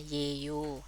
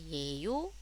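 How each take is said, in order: First: The pitch stays level at the end. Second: The pitch rises at the end. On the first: It is a statement. "nadanya biasa aja" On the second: It is a question. "nadanya harus dinaikkan"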